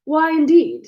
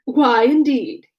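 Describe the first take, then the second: First: Said in the usual way. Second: Slow, drawn-out affected question. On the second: A narrator's reading. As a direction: stretch it out as a put-on. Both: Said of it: "said he in his natural tone".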